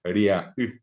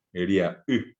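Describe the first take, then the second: No difference in how they are said.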